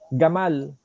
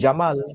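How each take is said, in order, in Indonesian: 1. Kata ini dimulai dengan bunyi g keras. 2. Kata ini dimulai dengan bunyi j. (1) "Jamal dibaca gamal" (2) "Kalau orang Saudi jamal"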